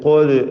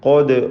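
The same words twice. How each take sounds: First: The vowel sounds rounded, like o. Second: The vowel sounds rounded, like o.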